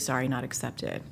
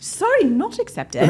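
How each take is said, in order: First: It is said in her normal voice. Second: It is said in a put-on accent.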